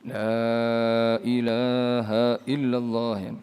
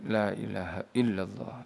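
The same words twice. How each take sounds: First: The vowels are drawn out long and slow. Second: The vowels are kept short and quick. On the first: "Kemudian ada yang baca panjang" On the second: "ada yang membacanya dibaca pendek"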